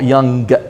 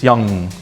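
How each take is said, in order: First: The word ends with a hard G sound. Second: The word ends without a hard G sound. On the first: The speaker calls it wrong. "don't say geh at the end" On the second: The speaker calls it right. "it's young"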